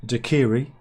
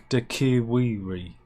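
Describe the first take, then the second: First: "daiquiri" said as tuh-KIR-ee, louder; "daiquiri" with no w sound, firm; correct pronunciation. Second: "daiquiri" drawn out slowly as dak-i-WIR-ee; "daiquiri" said slow with an extra w sound; wrong pronunciation. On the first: "daiquiri" demo of the correct way for listeners, said tuh-KIR-ee. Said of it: "correct pronunciation is". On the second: "daiquiri" mocking the wrong way for listeners, slow dak-i-WIR-ee. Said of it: "not daiquiri". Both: Shown as a demonstration.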